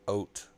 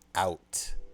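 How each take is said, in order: First: The vowel is shifted toward an 'oat' sound. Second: The vowel is the speaker's usual 'out' sound. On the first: This is how the Canadian friend says it. "He says oat" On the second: This is not how the friend says it. "Scotty definitely does not say out"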